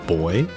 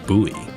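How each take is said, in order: First: The word sounds exactly like 'boy'. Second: The word does not sound like 'boy'. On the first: "the way Grimoire pronounces it as boy" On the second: "I always pronounce it like buoy"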